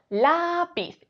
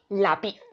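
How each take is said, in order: First: The stress is on the first syllable. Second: The stress is on the second syllable. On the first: The speaker calls it right. "Si creemos que la sílaba tónica es la" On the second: The speaker calls it wrong. "Y si creemos que es pi"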